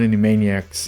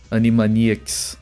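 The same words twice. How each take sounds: First: The name is said with English pronunciation. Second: The name is said with Brazilian Portuguese pronunciation. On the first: The speaker calls it wrong. "it's not Animaniacs" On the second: The speaker calls it right. "their names are pronounced different here"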